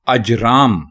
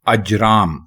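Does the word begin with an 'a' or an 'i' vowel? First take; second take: a; a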